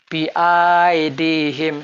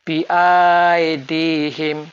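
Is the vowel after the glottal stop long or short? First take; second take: long; long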